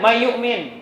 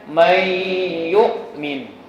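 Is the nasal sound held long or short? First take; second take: short; long. First: The nasal sound is cut short and rushed. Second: The nasal sound is held long before moving on. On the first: The speaker calls it wrong. "tidak boleh. Jadi buru-buru" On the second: The speaker calls it right. "Dibacanya dengan pan panjang"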